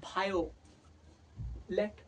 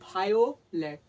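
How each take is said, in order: First: ভায়োলেট drawn out very slowly, syllable by syllable, with a rising end; ভায়োলেট spoken slowly and clearly for learners; slow spelling demo. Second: Said in the usual way. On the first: Shown as a demonstration. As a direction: stretch out ভায়োলেট slowly for the students. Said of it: "ভিআইও, তাহলে কি হবে?".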